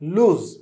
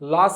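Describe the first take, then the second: First: The vowel is long, ending in a z sound. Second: The vowel is short, ending in an s sound. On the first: The speaker calls it right. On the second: The speaker calls it wrong. "లాస్ అన్నారు కదా, కాదండి"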